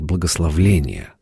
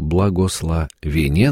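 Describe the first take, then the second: First: An extra 'l' sound comes before the ending. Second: No extra 'l' sound comes before the ending. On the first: The speaker calls it wrong. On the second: The speaker calls it right.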